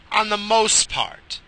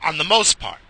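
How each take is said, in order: First: Slow, higher On the most part with On leaned on; slow emphatic On the most part; stress on On, drawn out. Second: Said in the usual way. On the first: Shown as a demonstration. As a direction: drag out On the most part, hitting On.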